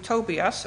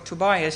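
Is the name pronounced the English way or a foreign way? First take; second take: foreign; English. First: The name is said with a non-English pronunciation. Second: The name is said with an English pronunciation.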